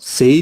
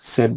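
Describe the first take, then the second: First: The vowel is a long glide, like 'say'. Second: The vowel is short, like in 'bed'. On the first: The speaker calls it wrong. "সেইড বলবে না" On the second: The speaker calls it right. "এটার উচ্চারণ হবে স্যাড"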